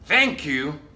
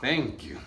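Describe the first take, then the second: First: It sounds sincerely grateful. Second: It sounds irritated and confrontational.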